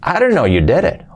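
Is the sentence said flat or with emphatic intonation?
emphatic. It is said with emphatic, lively intonation.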